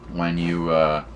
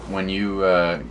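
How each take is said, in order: Both takes have the same delivery.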